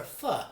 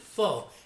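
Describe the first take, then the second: First: It is said the Vietnamese way. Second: It is said the common American way. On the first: The speaker calls it right. "It's pho or pho" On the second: The speaker calls it wrong. "here in the States a lot of people pronounce it pho, and that's not how it's pronounced"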